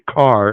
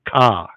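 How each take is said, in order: First: The final R is pronounced clearly. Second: The final R is dropped, Boston style.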